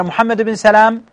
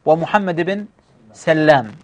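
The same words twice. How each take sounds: First: سلام said Salam, with a short single l; single-lam Salam. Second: سلام said Sallam, with a long double l; doubled-lam Sallam. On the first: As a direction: say سلام as Salam, l not doubled. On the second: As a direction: say سلام as Sal-lam, holding the l. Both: Shown as a demonstration. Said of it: "نطق الآباء".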